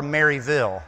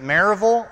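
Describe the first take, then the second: First: Maryville said in full as MARY-vill; spelled-out Maryville. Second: Maryville run together as MAIR-uh-vul; local-style Maryville. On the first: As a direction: say Maryville as two words, Mary Ville. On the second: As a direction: say Maryville with reduced last syllables, MAIR-uh-vul. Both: Shown as a demonstration. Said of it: "gotta get this straight".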